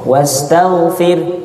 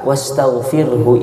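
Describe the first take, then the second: First: The word stops on the 'r' sound. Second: The word ends with a clear final 'hu'. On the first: The speaker calls it wrong. "maka berhenti di huruf ro. Wastaghfir, hu-nya mana?" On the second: The speaker calls it right. "kalau baca berhenti di wastaghfirhu"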